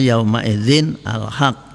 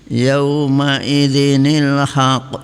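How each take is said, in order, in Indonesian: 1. Idzin dan al haq dibaca sebagai dua kata terpisah. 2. Idzin tersambung ke haq dengan bunyi nil. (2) "Tanwin kalau dibaca terus diganti dengan nun mati dibaca kasroh"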